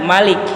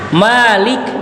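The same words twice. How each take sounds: First: The first vowel is kept short. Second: The first vowel is drawn out long. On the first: It means king. "dengan memendekkan mim" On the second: It means the owner who possesses. "jikalau dipanjangkan mimnya"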